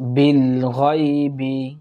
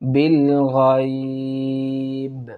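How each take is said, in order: First: The last word ends with a short vowel. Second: The last word ends on a bare consonant. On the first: The recitation continues without stopping. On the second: The reciter stops at this word.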